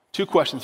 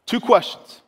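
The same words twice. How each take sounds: First: Said in the usual way. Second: First "Two questions" punched loud and high; emphatic. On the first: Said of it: "very important". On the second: Shown as a demonstration. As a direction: hit "Two questions" hard to announce them. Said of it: "two questions, very important".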